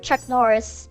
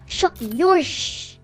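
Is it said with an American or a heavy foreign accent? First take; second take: American; heavy foreign. First: It is said in an American accent. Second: It is said in his dad's heavy foreign accent.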